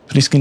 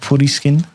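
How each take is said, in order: First: It is said with an English pronunciation. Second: It is said with a Japanese pronunciation.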